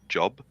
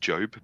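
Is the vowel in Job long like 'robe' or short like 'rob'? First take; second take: short; long. First: The vowel is short, rhyming with rob. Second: The vowel is long, rhyming with robe. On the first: This is how the name looks from its spelling. "but spelt Job" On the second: This is how the name is actually pronounced. "I think it's pronounced Job"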